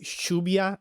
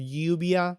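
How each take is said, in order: First: It is said with an Argentine pronunciation. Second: It is said with a standard pronunciation. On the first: "in Argentina, we say like Shubia" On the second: "which is like the proper pronunciation"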